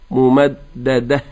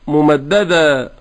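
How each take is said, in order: First: The word ends in an 'h' sound. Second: The word ends in a long 'a' vowel. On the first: The speaker calls it right. "أن ينطق الهاء" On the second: The speaker calls it wrong. "ينطق بدلا من الهاء ألفا"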